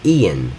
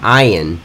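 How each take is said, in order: First: The name begins with an "ee" sound. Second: The name begins with an "eye" sound. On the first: The speaker calls it right. "He pronounces it Ian" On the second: The speaker calls it wrong. "I called him Ian because it started with an I"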